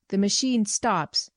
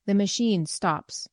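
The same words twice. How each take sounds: First: Venomous remark. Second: Slow, solemn pronouncement. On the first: Retold or imitated. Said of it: "the venomous sort of remark". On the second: Acted. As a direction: speak it slowly, gravely, from the dark. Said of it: "speaking out of the darkness with solemnity".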